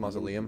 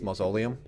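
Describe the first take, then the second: First: It is said with the standard pronunciation. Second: It is said to sound like linoleum. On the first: The speaker calls it right. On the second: The speaker calls it wrong.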